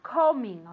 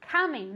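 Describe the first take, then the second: First: The first vowel sounds like an 'o'. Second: The first vowel sounds like an 'a'. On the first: The speaker calls it wrong. "not coming" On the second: The speaker calls it right. "As if it were an A"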